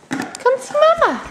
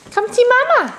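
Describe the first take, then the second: First: Even higher coaxing call, stretching Mama. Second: High coaxing call. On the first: Calling toddler again. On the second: Calling toddler to come. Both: Real, not acted.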